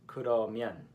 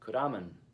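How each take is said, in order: First: It is said in standard Korean pronunciation. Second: It is said in Busan dialect pronunciation. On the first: "the word 그러면, meaning then" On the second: "which Busanians will pronounce 그라면"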